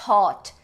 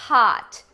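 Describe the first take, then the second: First: The vowel is closer, with the mouth less open. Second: The vowel is open, with a lower tongue. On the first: The speaker calls it wrong. "Não é hot" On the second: The speaker calls it right. "A tua boca tá mais aberta"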